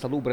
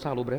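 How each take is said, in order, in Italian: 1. L'accento è sulla seconda sillaba. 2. L'accento è sulla prima sillaba. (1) "si dice salubre" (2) "e non salubre"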